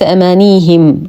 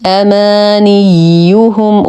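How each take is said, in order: First: أمانيهم as "amaaniihim", long i and him ending; wrong undoubled ي. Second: أمانيهم as "amaaniyyuhum", ي held doubled with full u; doubled ي with damma. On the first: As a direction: demonstrate the mistake: drop the doubling and u in أمانيهم. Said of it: "وليس أمانيهم، وهذا خطأ". (أمانيهم بياء مخففة وكسر الهاء خطأً) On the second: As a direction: chant أمانيهم slowly, stressing the doubled y and rounded u. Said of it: "نشد الياء مع إتمام الضم". (تشديد ياء أمانيهم مع إتمام الضم) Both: Shown as a demonstration.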